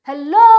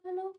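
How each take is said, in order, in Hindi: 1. यह शब्द बहुत ज़ोर से चिल्लाकर कहा गया है। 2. यह शब्द बहुत धीरे से कहा गया है। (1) "ହେଲୋ ମୁଁ ଚିଲଉଛି, ବହୁତ ବଡ ପାଟିରେ ମୁଁ ଚିଲଉଛି" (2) "ମୁଁ ବହୁତ ଧୀରେ କଥା ହଉଛି"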